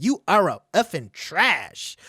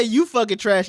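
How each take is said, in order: First: Prim mock quote. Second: Said in the usual way. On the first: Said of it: "She said". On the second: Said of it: "She's, she didn't say".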